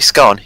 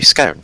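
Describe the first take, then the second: First: The vowel is short, like in 'gone'. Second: The vowel is long, like in 'bone'. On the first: The speaker calls it wrong. "You don't say scone" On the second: The speaker calls it right. "you say scone"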